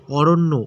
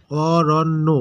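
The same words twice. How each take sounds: First: Said in the usual way. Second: Aranya slow, each syllable drawn out; broken into syllables. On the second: Shown as a demonstration. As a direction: split Aranya into three separate syllables. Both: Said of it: "ভেঙে উচ্চারণ".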